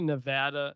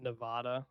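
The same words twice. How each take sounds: First: The middle vowel is a short A sound. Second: The middle vowel is a long A sound. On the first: The speaker calls it right. "I think it's actually Nevada ... Without the long A" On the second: The speaker calls it wrong. "not Nevada"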